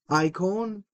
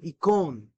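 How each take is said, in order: First: It is said in the Erasmian pronunciation. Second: It is said in the Koine pronunciation. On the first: "If you said it in Erasmian, would be icon" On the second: "here we say it in Koine Air pronunciation"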